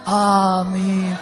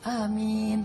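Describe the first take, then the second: First: It is said in an eerie, spooky voice. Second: It is said in a normal voice.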